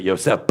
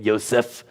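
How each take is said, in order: First: "Yosef" ending on a popped p. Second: "Yosef" ending in a soft f. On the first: Teacher questioning the ending, popped p. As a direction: close "Yosef" with a p instead of f. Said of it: "Like the P is actually a P H". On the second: Teacher comparing name endings, soft f. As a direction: finish "Yosef" on a flowing f. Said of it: "or is it Yosef?". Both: Shown as a demonstration.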